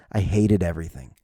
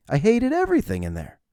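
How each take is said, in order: First: Said in the usual way. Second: I hated everything in there jumping high on everything; emphatic repeat. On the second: Shown as a demonstration.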